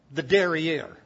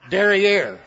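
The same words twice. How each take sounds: First: Said in the usual way. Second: Derriere punched out louder; stress on derriere. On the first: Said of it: "put that in your notebook". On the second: Shown as a demonstration. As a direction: hit the word derriere hard for the class. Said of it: "try to get new words".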